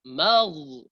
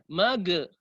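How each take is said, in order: First: The final consonant keeps a soft continuous friction. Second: The final consonant is bounced with a release. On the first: The speaker calls it right. "Bagaimana Ustaz?" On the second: The speaker calls it wrong. "terlalu tinggi, dia menjadi qalqalah, itu salah"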